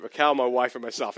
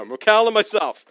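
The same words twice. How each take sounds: First: "Raquel, my wife, and myself" run as a list, low and trailing down; low, falling list of "Raquel, my wife, and myself"; list-like phrasing. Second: "Raquel and myself" as one firm pair, falling at the end; "Raquel and myself" in full voice, joined as a couple; corrected phrasing. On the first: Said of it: "sounds like there's three people". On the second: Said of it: "The way I said that isn't right". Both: Shown as a demonstration.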